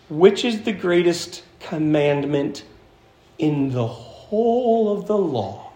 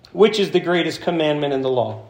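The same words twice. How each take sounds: First: "in the whole of the law" drawn out slowly, with pauses; deliberate emphatic repeat. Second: Said in the usual way. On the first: Shown as a demonstration. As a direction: spell out the question, stretching "whole".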